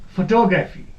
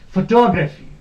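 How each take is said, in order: First: The stress is on the second syllable. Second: The stress is on the second syllable.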